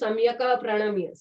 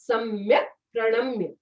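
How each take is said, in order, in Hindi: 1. k के बाद छोटा a स्वर बोला जाता है। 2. k बिना किसी स्वर के बोला जाता है। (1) "नॉट सम्यक प्रणम्य। सम्यक का बोल दिया मतलब आपने ए बोल दिया" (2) "जैसे सम्यक प्रणम्य"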